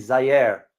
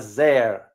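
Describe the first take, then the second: First: "Zaire" in two syllables, "za-EER" or "zai-AIR"; corrected pronunciation. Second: "Zaire" run into one syllable, like "zair"; common mispronunciation. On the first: Host correcting a common mistake for viewers, "Zaire" pronounced "zai-AIR". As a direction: say "Zaire" with a clear "eye" before "air". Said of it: "No, it's". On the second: Host showing viewers how many people say it, "Zaire" mispronounced as "zair". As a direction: say "Zaire" as "zair", dropping the middle vowel. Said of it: "A lot of people pr-, pronounce it as". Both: Shown as a demonstration.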